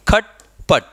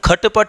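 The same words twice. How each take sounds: First: The final vowels are dropped, making two syllables. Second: Each consonant carries a vowel, making four syllables. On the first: The speaker calls it right. "इसका उच्चारण हम इस तरीके से करते हैं" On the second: The speaker calls it wrong. "हम खट पट नहीं बोलते हैं"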